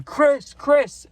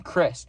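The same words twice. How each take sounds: First: Much higher, louder calling of the name; yelling the plug's name so the chasers turn around; yelling his name. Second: Said in the usual way. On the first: Retold or imitated. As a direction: call the name out down the street. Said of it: "And I'm yelling his name". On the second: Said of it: "what's a made-up name".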